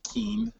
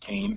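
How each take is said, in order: First: The name has an 'ee' vowel, like keen. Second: The name has an 'ay' vowel, like cane. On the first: The speaker calls it wrong. "more often than not do people say Keene" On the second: The speaker calls it right. "and it's Kane, K-A-N-E, the pronunciation"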